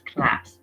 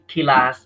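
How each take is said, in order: First: The k and l are joined without a vowel. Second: A vowel is inserted between k and l. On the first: The speaker calls it right. "it is class" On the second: The speaker calls it wrong. "Don't read kilas"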